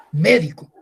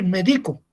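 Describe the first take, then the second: First: "médico" said as MÉ-di-co; "médico" with a strong MÉ and light, lower -dico; stress on first syllable. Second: "médico" said as me-DI-co; "médico" mispronounced with the stress on DI, as meDIco; stress shifted to second syllable. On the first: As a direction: punch the opening syllable of "médico", then let it fall. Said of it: "Simplemente la entonación". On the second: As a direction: lean on the middle syllable of "médico". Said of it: "es muy diferente decir médico". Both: Shown as a demonstration.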